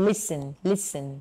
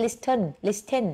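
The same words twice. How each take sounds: First: "listen" said with no T sound, lis-en, slowly; silent T. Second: "listen" said with a clear T, lis-ten, the wrong way. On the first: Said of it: "ส่วนตัวนี้ออกเสียงว่า listen". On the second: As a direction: sound the T in "listen" to show the mistake. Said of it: "ไม่มีเสียงตัว T นะคะ ไม่ใช่ listen". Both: Shown as a demonstration.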